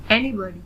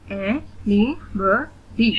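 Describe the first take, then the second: First: Said in the usual way. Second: "anybody" very slowly in four separate beats; split into syllables. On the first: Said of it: "read the word". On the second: Shown as a demonstration. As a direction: pause after every syllable of "anybody". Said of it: "split in the syllables". ("anybody" का हर syllable अलग-अलग)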